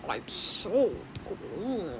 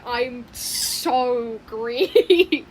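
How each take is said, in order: First: Very slow, stretched I'm so green; slow character line. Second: Drawn-out, stretched I'm so green; slow character line. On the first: Quoting the green one's only line, very slow. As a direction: draw it out like the odd green character. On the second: Imitating the green one for the viewers, slow and drawn out. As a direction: mimic the green character slowly, stretching each word. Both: Retold or imitated. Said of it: "it's Greenity".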